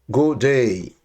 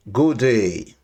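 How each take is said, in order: Both takes have the same delivery.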